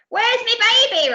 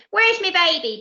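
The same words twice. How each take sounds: First: Very high, slow, loud insisting demand; even louder boom. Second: High, loud booming demand; a mother's booming question; boomed. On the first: Doris repeats her demand louder and slower. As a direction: bellow it out impatiently. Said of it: "repeated Doris". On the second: Pirate mum demands her baby with a loud boom. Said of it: "boomed the captain's wife". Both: Acted.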